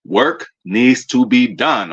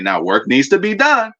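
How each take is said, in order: First: Slow, deliberate repeat to drive it home; slow emphatic repeat. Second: Said in the usual way. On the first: Shown as a demonstration. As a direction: work needs to be done, said slowly, each word weighted.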